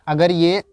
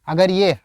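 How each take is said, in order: No difference in how they are said.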